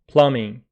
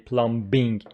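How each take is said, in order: First: The b sound after the m is silent. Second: The b sound after the m is pronounced. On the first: The speaker calls it right. "B after m is not pronounced" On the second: The speaker calls it wrong. "Please don't say plumbing"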